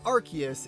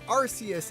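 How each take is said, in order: First: It uses the newer, modern official pronunciation. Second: It uses the older, first-heard pronunciation. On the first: This is the name imposed later. The speaker calls it wrong. "Arceus is the false idol" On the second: This is the genuine original name. The speaker calls it right. "Arceus is the true name"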